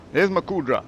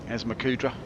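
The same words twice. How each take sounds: First: Pleased call. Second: Said in the usual way. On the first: Real, not acted.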